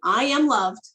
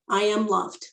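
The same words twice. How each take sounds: First: It is said loudly. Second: It is said at a normal volume.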